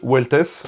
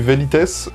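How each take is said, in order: First: The first letter is said like a W. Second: The first letter is said like a V. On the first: This follows the Latin pronunciation. "en latin, le V se prononce U" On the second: This follows how the word is written. "ça s'écrit Velites"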